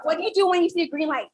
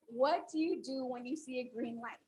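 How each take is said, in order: First: Fast and loud, firing it off at the crowd; rushed trick question. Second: Softer, unhurried and clear; calm repeat. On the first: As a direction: catch them off guard with a quick, loud question. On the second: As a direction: ask it again, calmly this time. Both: Shown as a demonstration. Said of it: "I'll ask it again".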